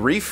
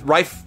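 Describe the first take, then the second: First: The vowel sounds like the one in 'leaf'. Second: The vowel sounds like the one in 'life'. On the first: The speaker calls it wrong. "I thought it might be Reef" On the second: The speaker calls it right. "it's like rifle without the L"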